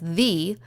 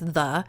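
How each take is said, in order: First: The vowel is a full, unreduced sound. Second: The vowel is a reduced schwa sound. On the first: "then it's actually not a, you know, entirely irregular word" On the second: "we have a schwa sound"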